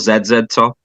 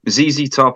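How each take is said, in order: First: The letter Z is pronounced "zed". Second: The letter Z is pronounced "zee".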